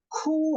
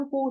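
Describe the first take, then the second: First: "ku" with a strong breathy puff after the k, slow and high; aspirated ku. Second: "ku" with a plain k and no breath; the wrong plain "ku"; unaspirated ku. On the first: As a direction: drag out "ku" with a heavy puff of air. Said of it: "ada H-nya". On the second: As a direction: say "ku" short, with no puff. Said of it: "bukan ku". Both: Shown as a demonstration.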